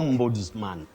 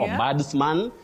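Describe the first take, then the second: First: The s is pronounced as a z sound. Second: The s is pronounced as an s sound. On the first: The speaker calls it right. "S takes the sound Z" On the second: The speaker calls it wrong. "Not ombudsman, the way sometimes you may hear it"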